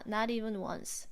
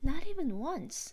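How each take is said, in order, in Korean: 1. 감정 없이 밋밋하게 말해요. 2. 생동감 있게 감정을 살려서 말해요. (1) "이렇게 하는 게 아니라" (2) "이런 식으로 따라 하는 거죠"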